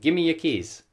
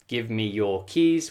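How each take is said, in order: First: The word 'your' is reduced to 'ya'. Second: The word 'your' is said in full.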